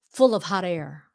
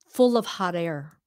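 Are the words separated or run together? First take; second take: run together; run together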